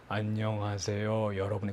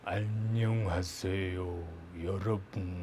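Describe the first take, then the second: First: It is slow at normal pitch. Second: It is slow with a low pitch.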